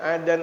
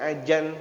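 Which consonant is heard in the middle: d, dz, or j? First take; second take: d; j. First: The middle consonant is a plain d. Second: The middle consonant is a j. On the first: "Ada yang adan" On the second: "ada yang ajan"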